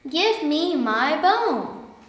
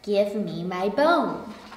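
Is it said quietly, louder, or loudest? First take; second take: louder; quietly. First: It is said a little louder. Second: It is said quietly.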